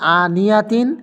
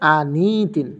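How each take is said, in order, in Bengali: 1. 'ni'-এর পরে পূর্ণ 'ya' শব্দাংশ আছে। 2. 'ni'-এর পরে কোনো স্বরধ্বনি নেই; এটি সরাসরি 'tin'-এ মিশে যায়। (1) "যদি সাকিন না দেন, জবর দেন, তাহলে উচ্চারণ হবে" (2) "জজম বা সাকিন দিলে হবে কি?"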